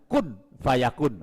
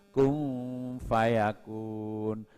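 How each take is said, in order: First: The n is pronounced clearly before the f. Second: The n is nasalized and glides into the f. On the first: The speaker calls it wrong. "nah itu izhar, salah" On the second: The speaker calls it right. "kun nunnya tidak dibaca jelas, langsung ke fa, pakai gunnah"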